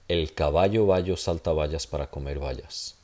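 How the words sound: The b and v sounds are soft fricatives.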